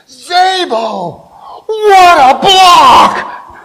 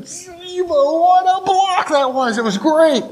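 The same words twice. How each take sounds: First: High, drawn-out holler, building louder; excited coach's shout. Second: Gleeful inner cheer, stretched out and pitched high; elated inner voice. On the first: Line coach leans over a player after his block, excited shout. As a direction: bellow it like a coach thrilled by a block. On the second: Player secretly relishing his coach's praise, elated high squeal. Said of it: "in the back of my head". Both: Acted.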